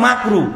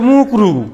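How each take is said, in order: First: The first syllable has an 'a' vowel. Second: The first syllable has an 'u' vowel. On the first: The speaker calls it right. "শব্দ হচ্ছে মাকরু" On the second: The speaker calls it wrong. "মানে ঠিক করে শব্দটাও বলে না"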